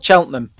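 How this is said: It is said the way the locals say it.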